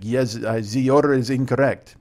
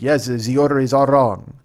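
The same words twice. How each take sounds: First: Lightly attempted German accent; bad German accent. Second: Slow, loud botched German that lands French; accidental French accent. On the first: German customer answering about his order, in a poor German accent. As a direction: do a half-hearted German accent. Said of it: "And he was German". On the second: Retold or imitated. German guy confirming the wrong order, in an accent gone French. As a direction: attempt German and slip into French. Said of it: "that's a French guy".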